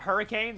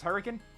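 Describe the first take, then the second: First: The last syllable is a full 'cane'. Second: The last syllable is reduced and weak. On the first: An outsider says it this way. The speaker calls it wrong. "This is not Hurricane. You do not say cane" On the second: A local says it this way. The speaker calls it right. "This is Hurricane"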